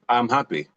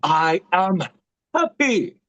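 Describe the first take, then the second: First: It is said flatly, without emotion. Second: It is said with hyper, happy energy.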